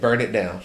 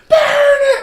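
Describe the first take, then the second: First: It is said without yelling. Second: It is yelled loudly.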